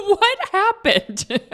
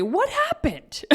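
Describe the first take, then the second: First: High, slow teasing husband voice; husband teasing again, high and slow; imitating husband. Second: Higher, slow mock husband voice; mock puzzled question; husband teasing, higher slow; imitating husband. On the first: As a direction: drag it out, mock puzzled. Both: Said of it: "he was the one who mentioned".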